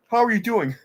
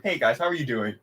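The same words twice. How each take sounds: First: Mock cheery greeting. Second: Flat mock greeting. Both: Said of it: "he just, like, asked them".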